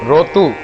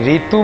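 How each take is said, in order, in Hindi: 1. पहला स्वर 'o' ध्वनि है। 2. पहला स्वर 'ee' ध्वनि है। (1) "री को रो रो बोलेंगे" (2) "जैसे रीतु बोलेंगे"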